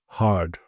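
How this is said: The R is pronounced after the vowel. "if you have a rhotic accent, you would say hard"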